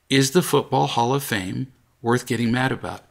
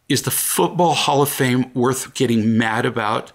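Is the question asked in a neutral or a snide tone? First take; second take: neutral; snide. First: It is asked in a calm, neutral tone. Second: It is asked in a snide, attacking tone. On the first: The speaker calls it right. "hear my tone" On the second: The speaker calls it wrong. "If you have a tone"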